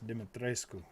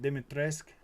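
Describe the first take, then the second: First: The 'u' sound near the end is clearly pronounced. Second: The 'u' sound near the end is weak or missing. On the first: The speaker calls it right. "Got to get the U in there" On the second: The speaker calls it wrong. "she tries to pronounce it Dimitrescu"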